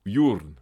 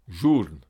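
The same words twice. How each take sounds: First: "journe" starting with a Y sound, yoorn. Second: "Journe" with a French zh at the start; French J sound. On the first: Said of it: "il se prononce comme un Y". (« journe » prononcé avec un Y initial) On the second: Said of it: "se prononcent comme le J français". (« Journe » avec un J français) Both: Shown as a demonstration.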